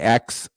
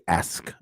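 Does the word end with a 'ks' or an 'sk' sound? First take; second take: ks; sk. First: The word ends with a 'ks' sound. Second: The word ends with an 'sk' sound. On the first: The speaker calls it wrong. "I don't say ax" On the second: The speaker calls it right. "I say ask"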